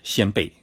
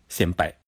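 First: It is said with the Chinese pronunciation. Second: It is said with the Japanese pronunciation. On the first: "中文念成是先辈" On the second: "日文念成是先拜"

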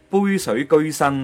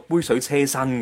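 First: The third syllable is read as 'geoi'. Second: The third syllable is read as 'ce'. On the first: The speaker calls it right. "应该系" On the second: The speaker calls it wrong. "而家好多人都系读"

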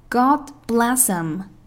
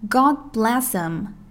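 First: The word 'him' is said in weakened form. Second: The same.

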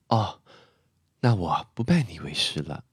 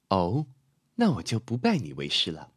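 First: Soft restrained voice with a falling tune. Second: Cool provocative voice with fully articulated words. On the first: She feels wronged but will not resist. "素素的声音会比较内敛，然后是走降调，感觉受尽委屈" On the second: An aloof goddess is challenging him. "有点挑衅的感觉，咬字发音也会比较完全"

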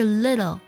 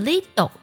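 First: The middle d-like sound is light and quick. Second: The middle d-like sound is strong and heavy. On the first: The speaker calls it right. "而是little，很轻很快的一带而过" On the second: The speaker calls it wrong. "不能把这个的的音读太重，读作little 就不对了"

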